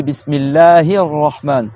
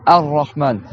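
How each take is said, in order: First: Bismillahir Rahman joined, hi running into R; linked, A dropped. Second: Ar-Rahman starting on a clear A; standalone, A sounded. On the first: Teacher showing students Bismillahir Rahman in liaison. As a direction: link Bismillahir Rahman without a new A. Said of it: "dans la liaison de la Fatiha". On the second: Teacher showing students Ar-Rahman as a standalone word. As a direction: begin Ar-Rahman afresh with its vowel. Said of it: "je mets le mot tout seul". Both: Shown as a demonstration.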